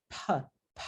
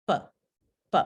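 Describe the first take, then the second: First: "P" with a breathy burst after it; aspirated p. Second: "P" with no puff of air after it; unaspirated p. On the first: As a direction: push air out after each "P". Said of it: "sale el alófono con aspiración". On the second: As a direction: keep each "P" clipped, with no breath. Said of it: "en lugar de". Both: Shown as a demonstration.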